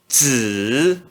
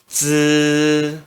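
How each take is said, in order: First: The pitch dips low then rises. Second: The pitch stays high and level. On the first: "No terceiro tom" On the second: "no primeiro tom se pronuncia z"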